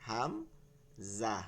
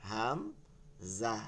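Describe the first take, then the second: Both takes have the same delivery.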